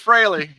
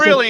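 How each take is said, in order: First: The first vowel sounds like 'fray'. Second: The first vowel sounds like 'free'. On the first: The speaker calls it right. "instead of Fraley" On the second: The speaker calls it wrong. "Freely instead of Fraley"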